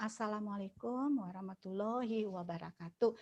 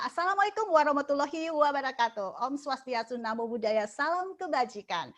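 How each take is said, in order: First: Softer, dull "Assalamualaikum"; flat greeting. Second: Higher and louder, spirited "Assalamualaikum"; energetic greeting. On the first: Teacher contrasting a limp greeting with an energetic one, softer. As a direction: say it without any lift, deflated. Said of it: "Tapi kalau kita bilang". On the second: Teacher showing students an energetic opening greeting, higher and louder. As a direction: open with lifted, rousing energy. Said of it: "itu memancing kita untuk energik ya". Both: Shown as a demonstration.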